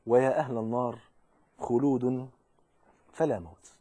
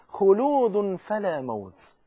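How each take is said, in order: First: Grim low verdict. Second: Triumphant slow call. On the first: The caller pronounces doom on hell's people, grim low verdict. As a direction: let the doom sink slowly. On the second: The caller proclaims to paradise's people, slow triumphant call. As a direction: stretch 'خلود' out slowly, ringing. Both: A narrator's reading.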